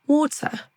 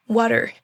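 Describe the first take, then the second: First: British accent. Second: American accent. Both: Shown as a demonstration. Drill alternates American and British.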